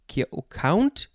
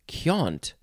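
First: The vowel has no added y-like glide. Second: The vowel has an added y-like glide. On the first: "not count" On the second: "in some dialects, I guess they say count"

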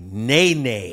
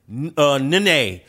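First: The name is said the American English way. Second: The name is said the Brazilian Portuguese way. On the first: This is how the name is said abroad. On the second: This is how the name is said at home. "In Brazil, he said it"

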